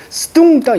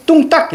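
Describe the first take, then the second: First: 스뚱딱 with an added 스 syllable before 뚱; wrong reading. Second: 뚱딱 starting straight on a tense ㄸ; tense-consonant reading. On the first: Teacher warns students against misreading the old spelling, wrong reading 스뚱딱. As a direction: sound the ㅅ separately at the start of 스뚱딱. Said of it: "이렇게 읽으면 안 되고요". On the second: Teacher shows students the old spelling read as tense 뚱딱. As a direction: say 뚱딱 as two tense syllables, no 스 before it. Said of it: "이렇게 읽는 게 맞아요". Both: Shown as a demonstration.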